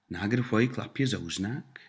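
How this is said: It is said with question intonation.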